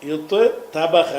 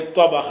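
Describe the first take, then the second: First: The two consonants are said separately, one after another. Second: The two consonants merge into one doubled consonant. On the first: The speaker calls it wrong. "நமக்கு சொல்ல வரமாட்டேங்குது" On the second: The speaker calls it right. "அந்த தேயை தோயாக மாற்றுறாங்க"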